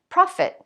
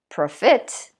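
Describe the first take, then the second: First: The stress is on the first syllable. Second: The stress is on the second syllable. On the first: The speaker calls it right. "On the first syllable again" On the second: The speaker calls it wrong. "I don't say profit"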